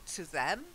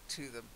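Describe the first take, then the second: First: The word 'them' carries strong stress. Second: The word 'them' is said weak and unstressed. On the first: It points to those particular people. The speaker calls it wrong. "Not to them, ... because to them would mean those particular people" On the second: It refers to people in general. The speaker calls it right. "but to them"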